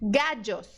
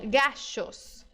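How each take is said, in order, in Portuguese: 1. A consoante do meio soa como o j do inglês. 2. A consoante do meio soa como o sh do inglês. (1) "Outro som é o D J" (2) "é do S H do shopping"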